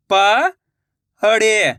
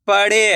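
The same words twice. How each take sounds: First: पढ़े drawn out slowly, syllable by syllable; slow syllable split. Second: Said in the usual way. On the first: Shown as a demonstration. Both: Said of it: "मैं किस तरीके से".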